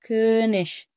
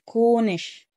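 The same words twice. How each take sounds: First: The vowel is a rounded front ö sound. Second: The vowel is a plain back o sound. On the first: The speaker calls it right. "كونش مش كونش" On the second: The speaker calls it wrong. "مش كونش"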